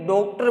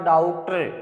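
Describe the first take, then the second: First: The first vowel sounds like a rounded 'o'. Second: The first vowel falls between 'aa' and 'o'. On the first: The speaker calls it wrong. "ओ बोल देते हैं" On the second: The speaker calls it right. "दोनों के बीच का"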